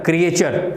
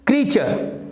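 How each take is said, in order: First: It is said in three syllables, kri-ay-cher. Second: It is said in two syllables, kree-cher. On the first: The speaker calls it wrong. "जिसको ज्यादातर ऐसा सुनते हैं" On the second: The speaker calls it right. "This is क्री"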